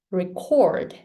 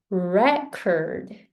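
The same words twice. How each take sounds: First: "record" with weak re and strong CORD; stress on CORD. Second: "record" slowly, REC strong, second syllable weaker; stress on REC. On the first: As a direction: model verb "record", second syllable stressed. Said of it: "cord is stronger than re". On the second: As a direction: teach noun "record" with a heavy first syllable. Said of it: "Re is stronger than". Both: Shown as a demonstration.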